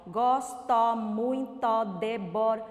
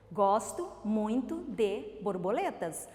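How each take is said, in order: First: "Gosto muito de bor-" in equal, loud, level syllables, breaking off; halting syllable reading. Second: "Gosto muito de borboletas" with a clear pause between words. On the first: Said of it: "não dá pra compreender". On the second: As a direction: read "Gosto muito de borboletas" smoothly within each word, spaced between them. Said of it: "o que que mudou?". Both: Shown as a demonstration.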